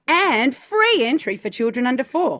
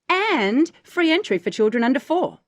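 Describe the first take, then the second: First: The stress falls on 'free'. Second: The stress falls on 'and'. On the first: "stress the, the free" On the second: "If we lean on the and"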